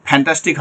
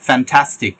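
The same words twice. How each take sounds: First: "ফ্যান্টাস্টিক" starting with both-lip "ph"; wrong f. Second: "ফ্যান্টাস্টিক" with English f, teeth on lip; correct f. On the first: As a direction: puff the start of "ফ্যান্টাস্টিক" like an aspirated p. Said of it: "ফ্যান্টাস্টিক হবে না". ("ফ্যান্টাস্টিক" দুই ঠোঁটের ফ দিয়ে) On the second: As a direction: start "ফ্যান্টাস্টিক" on a labiodental f. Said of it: "practice করবেন যে ফা আর ভা". ("ফ্যান্টাস্টিক" দাঁত-ঠোঁটের f দিয়ে) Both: Shown as a demonstration.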